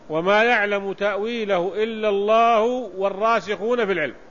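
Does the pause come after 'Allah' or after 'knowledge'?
after knowledge. It runs on past 'Allah' and pauses after 'knowledge'. Those firmly grounded in knowledge also know its interpretation. "ثم يقف"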